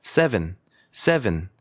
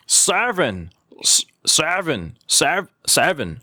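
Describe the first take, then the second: First: "seven" short and easy with a light "se"; relaxed model "seven"; light, correct pronunciation. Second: "seven" hugely stretched, first vowel pulled to a wide "saa"; mocking a learner's overblown "seven"; exaggerated mispronunciation. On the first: Shown as a demonstration. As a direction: say "seven" gently as "SEH-vn", no forcing. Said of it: "살짝 세". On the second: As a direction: overdo "seven" like "saaar-ven", slow and forced. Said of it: "이렇게 발음하시는 분을 제가 봤어요".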